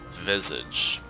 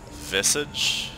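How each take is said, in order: First: The middle consonant is a buzzing z sound. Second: The middle consonant is a hissing s sound. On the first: The speaker calls it right. "That's it, Visage. ... the S as like a Z sound" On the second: The speaker calls it wrong.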